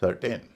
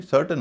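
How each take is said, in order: First: सर्टेन ending in a long "tayn"; full ay vowel at the end of सर्टेन; wrong long A. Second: सर्टेन said "SUR-tuhn"; सर्टेन with unstressed second syllable; correct weak ending. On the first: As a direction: mistaken सर्टेन, said "sur-TAYN". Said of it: "न कि". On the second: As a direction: make the end of सर्टेन a short schwa. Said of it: "इसका उच्चारण भी सर्टेन होता है". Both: Shown as a demonstration.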